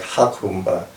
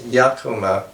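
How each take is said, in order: First: The name begins with an H sound. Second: The name begins with a Y sound. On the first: It is read as if it were a Spanish name. The speaker calls it wrong. "it's not pronounced like Hakumba, as some might say" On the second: It is read as an Arabic word. The speaker calls it right. "It's Yakuma"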